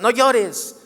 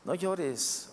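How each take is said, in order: First: It is shouted in an angry tone. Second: It is said gently, with loving comfort.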